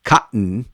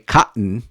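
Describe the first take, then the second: First: The middle t is a throat catch. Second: The same.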